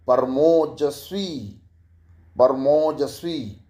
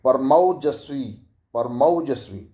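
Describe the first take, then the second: First: परमोजस्वी said with a plain ओ, slowly; wrong o vowel. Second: परमौजस्वी with a rounded, open औ; correct au vowel. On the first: Teacher shows the wrong vowel first: परमोजस्वी with ओ. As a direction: stretch परमोजस्वी with the short o sound. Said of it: "मौ नहीं, मौजस्वी". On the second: Teacher shows the right vowel with lip shape: परमौजस्वी with औ. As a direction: round the lips wide on औ in परमौजस्वी. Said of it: "कि ऐसे बोलते हैं". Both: Shown as a demonstration.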